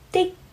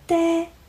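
First: The word ends abruptly, with the airflow cut off. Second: The word ends openly, with the airflow released. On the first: The speaker calls it right. "其实应该是的" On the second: The speaker calls it wrong. "发成了开放式的结束，变成的"

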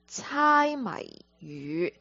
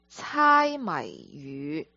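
First: The phrase is pronounced with Cantonese sounds and tones. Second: The same.

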